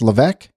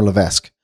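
First: Levesque pronounced "luh-VECK"; silent-S pronunciation. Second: Levesque pronounced "luh-VESK"; sounded-S pronunciation. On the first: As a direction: say Levesque without the S, rhyming with "deck". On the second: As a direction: say Levesque with the S, rhyming with "desk". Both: Shown as a demonstration. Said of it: "is that pronounced Levesque or Levesque".

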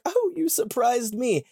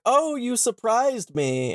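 First: Higher, lightly voiced girl; a touch of a surprised little girl; mild Lucy quote. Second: Slow, higher, lightly voiced faun; a hint of a startled faun; mild goat-man quote. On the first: Lucy startled back at the faun, higher voice. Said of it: "she's like". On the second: Faun startled by Lucy, lightly voiced higher. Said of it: "he's like".

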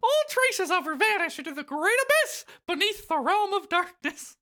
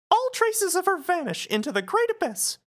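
First: Mock-grand falsetto mouse, louder; Mickey. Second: Solemn line in mouse falsetto; Mickey. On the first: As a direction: declaim doom in a high mouse voice. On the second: Acted. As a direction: deliver doom in a squeaky cartoon voice. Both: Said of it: "Mickey replies".

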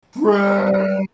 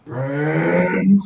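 First: Loud, drawn-out monster bellow; level, booming beast cry; exclaiming creature. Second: Loud, drawn-out monster growl, rising; big beast asking, pitch climbing; questioning creature. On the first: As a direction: roar it out as a happy declaration. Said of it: "looks at you and sniffs and goes". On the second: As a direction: roar it as an uncertain question. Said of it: "looks around and goes". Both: Acted.

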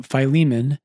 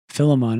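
First: Philemon said fy-LEE-mun; fy-LEE-mun pronunciation. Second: Philemon said FIL-uh-mon; FIL-uh-mon pronunciation. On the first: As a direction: open Philemon with "fy", stress on LEE. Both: Shown as a demonstration. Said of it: "I don't know how you even pronounce it".

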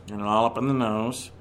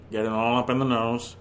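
First: Low voice, resonance in the nose; nasal, a bit deeper, sound through the nose. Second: Low nasal voice, sound through the nose. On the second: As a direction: push it all up through the nose. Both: Shown as a demonstration.

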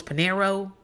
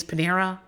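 First: "Panero" with a final "oh"; husband's mispronunciation. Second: Said in the usual way. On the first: Retold or imitated. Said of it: "and he goes". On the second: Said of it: "tell them that the name is Panera".

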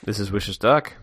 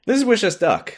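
First: Lightly quacky duck voice; a hint of Donald Duck. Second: Quacky cartoon duck voice; Donald Duck voice. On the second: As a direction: squawk it like Donald. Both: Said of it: "A segment where we try to sound like Donald Duck".

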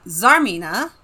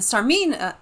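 First: Zarmina starting on a buzzed Z; Z pronunciation. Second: Sarmina starting on an unvoiced S; S pronunciation. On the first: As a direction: say Zarmina with Z as in zoo. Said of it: "I think it's Zarmina". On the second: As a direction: say Sarmina with S as in sun. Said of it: "I was pronouncing it Sarmina". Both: Shown as a demonstration.

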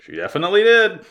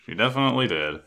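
First: "She definitely did" high and loud; emphatic agreement. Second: Said in the usual way. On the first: Shown as a demonstration.

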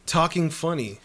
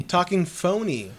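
First: Said funny, not phony; funny where phony was meant. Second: Phony said slowly with a long o, foh-nee; phony spelled out carefully, foh-nee. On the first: Real, not acted. Slipping funny in place of phony to the guys. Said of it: "Funny or phony?". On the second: Shown as a demonstration. Correcting himself to the guys, slow careful phony. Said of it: "What did I say?".

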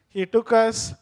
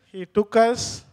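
No difference in how they are said.

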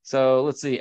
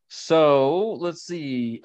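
First: Said in the usual way. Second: So let's see stretched very slowly, each word held; drawn-out so let's see. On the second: Real, not acted. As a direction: drag out So let's see while thinking. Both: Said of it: "repeated slowly".

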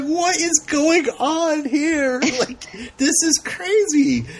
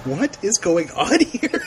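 First: Much higher, slow squealing disbelief through laughter; incredulous laughing. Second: Half-laughing, slow confused question; mock bafflement, laughing a little; bewildered laugh. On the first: Retold or imitated. Host recalling her reaction, laughing incredulously. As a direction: lose it laughing at the scene. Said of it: "I'm just like". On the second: Host retelling her confusion while watching, laughing. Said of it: "And I'm like".

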